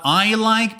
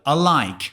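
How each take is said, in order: First: The word I has the standard eye vowel. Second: The word I is said like ah. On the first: "and not I like" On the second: "but I like"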